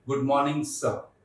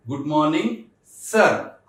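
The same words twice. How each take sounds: First: "सर" ending in an open vowel, no r; dropped R. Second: "सर" with the final r pronounced; R sounded in सर. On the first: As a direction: stretch the start of "सर" and eat the r. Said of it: "र को खा जाना है". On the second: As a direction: say "सर" with an audible r at the end. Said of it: "आपने सर नहीं बोलना इसके बाद". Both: Shown as a demonstration.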